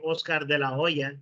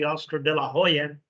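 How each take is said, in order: First: Oscar de la Hoya with a silent h, Spanish style; Spanish pronunciation. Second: Oscar de la Hoya with the H sounded, English style; English pronunciation. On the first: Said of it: "In Spanish, they say". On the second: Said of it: "in English, people say". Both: Shown as a demonstration.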